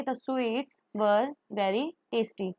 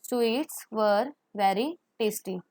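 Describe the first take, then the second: First: Very slow, clear teaching read; slow model sentence. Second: Very slow repeat, clear and even; slow model sentence. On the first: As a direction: say it slowly for the class. (धीरे-धीरे साफ़ पढ़ना) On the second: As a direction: repeat slowly for the class. (धीरे-धीरे दोहराना) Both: Shown as a demonstration. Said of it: "तो हम कैसे लगाएंगे?".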